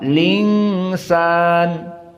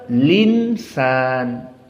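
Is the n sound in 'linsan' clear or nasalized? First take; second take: nasalized; clear. First: The n is hidden as a nasal sound. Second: The n is pronounced as a clear n.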